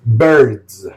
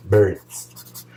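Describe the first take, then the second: First: BIRDS said louder, as a careful correction; careful pronunciation. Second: Said in the usual way. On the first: Real, not acted. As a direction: repeat "Birds" firmly to get the word across. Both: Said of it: "Sorry for my accent".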